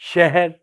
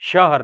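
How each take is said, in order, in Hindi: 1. पहला स्वर लिटा हुआ बोला जाता है, उर्दू ढंग से। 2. पहला स्वर पूरा बोला जाता है, अरबी ढंग से।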